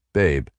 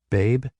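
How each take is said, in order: First: Said in the usual way. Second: High rising, puzzled; surprised question. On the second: A narrator's reading. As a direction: question the word babe. Questioning the pet name.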